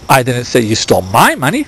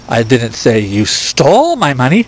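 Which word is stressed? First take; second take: my; stole. First: The stress is on "my". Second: The stress is on "stole".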